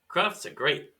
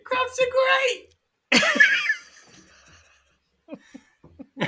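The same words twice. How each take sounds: First: It is said flatly, with little energy. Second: It is said with much more enthusiasm.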